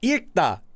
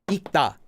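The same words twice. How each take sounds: First: It is said with an L sound. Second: It is said with no L sound. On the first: The speaker calls it wrong. "It's wrong" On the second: The speaker calls it right. "there's no L said"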